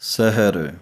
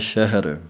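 First: The word begins with a plain s sound. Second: The word begins with an sh sound.

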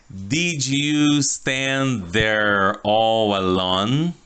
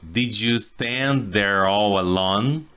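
First: The sentence is said at a slower pace. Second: The sentence is said at a faster pace.

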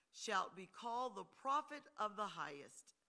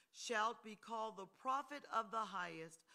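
The two takes are said the same way.

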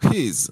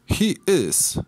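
First: The words merge into one short syllable. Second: Two full words are said separately.

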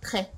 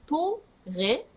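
First: The t and r are said almost together. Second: A vowel is inserted between t and r. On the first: The speaker calls it right. "ほぼ同時ぐらいに言ってますね" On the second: The speaker calls it wrong. "トレではないですね"

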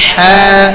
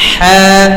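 Both takes have the same delivery.

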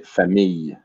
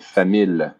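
First: The double L is pronounced like a Y. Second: The double L is pronounced as an L. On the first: The speaker calls it right. "I don't say the L sound" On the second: The speaker calls it wrong. "So I don't say famille"

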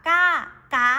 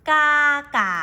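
No difference in how they are said.

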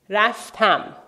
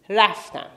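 First: The stress is on the last syllable. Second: The stress is on the first syllable.

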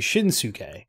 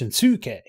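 First: The second syllable is not stressed. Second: The second syllable is stressed. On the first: "I could be pronouncing it wrong, but I would say Shinsuke" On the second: "But it's Shinsuke, the second syllable. Probably"

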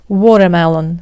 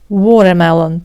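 No difference in how they are said.

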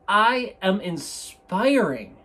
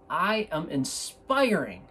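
First: It is said with stronger, more energetic gusto. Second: It is said with moderate, calmer energy.

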